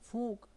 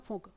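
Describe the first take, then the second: First: The vowel in the word is long. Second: The vowel in the word is short. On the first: "और बड़ा ऊ कैसे पढ़ेंगे?" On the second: "छोटा ऊ है ना"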